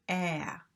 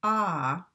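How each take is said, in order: First: "ah" as a flat front æ, as in cat; "ah" said slowly with the tongue forward, æ; right æ vowel. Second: "ah" with an open back ɑ, the learner's vowel; "ah" as in father, mouth wide open; wrong ah vowel. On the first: Teacher showing the correct American vowel, flat and front. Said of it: "and we say". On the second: Teacher showing students' mistaken vowel, open and back. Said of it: "Many of you say". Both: Shown as a demonstration.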